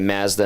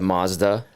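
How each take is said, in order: First: It is said with the Canadian vowel. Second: It is said with the non-Canadian vowel. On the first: This is how people in Canada say it. "people here say Mazda" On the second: This is how people outside Canada say it. "instead of"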